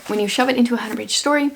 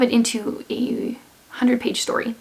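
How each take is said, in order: First: Said in the usual way. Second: Hoarse, fading voice; losing voice. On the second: Real, not acted. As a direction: voice giving out mid-sentence. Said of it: "now I feel like I'm losing my voice".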